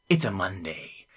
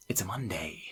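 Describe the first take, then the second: First: Said in the usual way. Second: Soft whispered quote. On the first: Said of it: "He says". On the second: Retold or imitated. Friend mimicking the storyteller's line, in a whisper. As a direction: whisper it flatly, barely voiced. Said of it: "Just like that".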